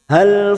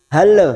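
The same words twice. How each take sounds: First: The final L stops cleanly without a vowel. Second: The final L bounces with an extra vowel. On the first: The speaker calls it right. "hanya masuk" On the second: The speaker calls it wrong. "jangan dibaca seperti memantul ... tidak boleh yang seperti itu"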